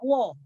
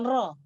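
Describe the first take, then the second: First: The r sound has no trill at all. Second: The r sound is said with a trill. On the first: The speaker calls it wrong. "Kalau tidak ada getaran, dia dibaca wo" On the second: The speaker calls it right. "bukan ro"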